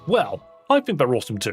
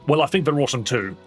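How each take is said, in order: First: There is a short pause after "well". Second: There is no pause after "well".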